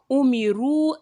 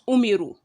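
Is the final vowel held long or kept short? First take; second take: long; short. First: The final vowel is held long. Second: The final vowel is kept short. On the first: The speaker calls it right. "you say umiru" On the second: The speaker calls it wrong. "not just umiru"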